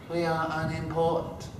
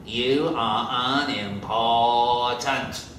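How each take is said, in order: First: Chanted in unison like schoolchildren; chanted, recite it back like a class; a lightly voiced class chant; pupils' chanted reply. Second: Stern principal's drill. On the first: Bottle caps chant the answer. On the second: Acted.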